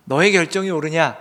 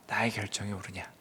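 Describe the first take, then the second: First: Loud, emphatic question; strong, loud confrontation; forceful challenge. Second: Low, soft question; hushed, lowered challenge; quiet questioning. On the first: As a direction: challenge the listener with a raised voice. God contrasts Jonah's decision with his own. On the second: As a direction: drop the voice low and ask softly. God contrasts his decision, softly. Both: Acted.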